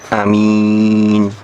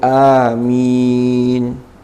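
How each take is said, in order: First: The first vowel is a short a. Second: The first vowel is a long a. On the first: "dibaca qasr. Jadi a-nya pendek" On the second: "amin bil maddi, kelawan mad, jadi a-nya dibaca mad"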